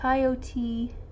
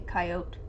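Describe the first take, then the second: First: The word is said in its longer, fuller form. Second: The word is said in a shortened, clipped form. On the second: "if I'm trying to abbreviate or say it shorter"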